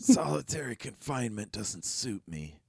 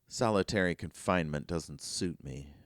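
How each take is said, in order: First: It is said in a rough, raspy voice. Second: It is said in a clear, ordinary voice.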